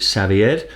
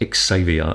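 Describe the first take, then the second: First: The name is said the non-British way. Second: The name is said the British way. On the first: "where I live, we pronounce it Xavier" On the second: "in the U K, it's pronounced Xavier"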